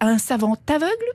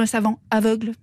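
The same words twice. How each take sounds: First: The t of savant links into aveugle. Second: The t of savant is silent before aveugle. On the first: A blind person who is very learned. "selon que l'on fait la liaison" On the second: A scholar who happens to be blind. "ou non"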